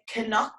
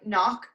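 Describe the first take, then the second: First: It starts with a hard c, then n. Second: It starts with a plain n, k silent. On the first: It is how Dublin, Cork and Galway speakers say it. "They pronounce this hard C and the hard N" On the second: It follows English spelling rules. "a massive mispronunciation"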